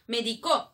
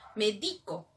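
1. El acento está en la última sílaba. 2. El acento está en la sílaba del medio. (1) "es en tiempo pasado" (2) "que te va a recomendar algo, una receta"

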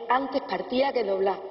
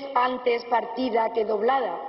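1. Se dice con acento andaluz. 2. Se dice con un acento castellano estándar. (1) "tal y como lo decimos los andaluces" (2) "No es"

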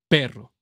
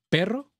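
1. La P inicial suena fuerte y muy enfatizada. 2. La P inicial suena suave y apenas enfatizada. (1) "la P de mi voz sí se oye como más, más eh, atacada, más pronunciada" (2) "ahí no se nota, con el ataque rápido"

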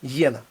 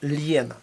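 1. Слово починається зі звуку «й». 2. Слово починається з дуже м'якого «л». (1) "в більшості випадків іспанці його вимовляють як «й»" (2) "можна вимовити як дуже м'яке «л»"

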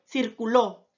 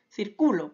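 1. El acento está en la última sílaba. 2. El acento está en la sílaba de en medio. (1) "Ahora ya tiene la mayor fuerza de voz en la última sílaba" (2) "ahora la mayor fuerza de voz la lleva en la penúltima sílaba"

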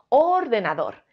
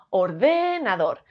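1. La tónica está en la primera sílaba. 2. La tónica está en la segunda sílaba. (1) "Si la sílaba tónica creemos que es or" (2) "Si fuese de"

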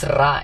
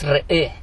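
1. El nombre se dice con la vocal 'ah'. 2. El nombre se dice con la vocal 'eh'. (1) "aunque dicen Ra, no es Ra" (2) "es Re, es rey, la manera correcta de decirlo"

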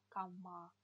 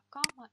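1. Ударение на последнем слоге. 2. Ударение на первом слоге. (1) "с ударением на «а». На последний слог это «дикий голубь»" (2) "А «кама» – это кровать"

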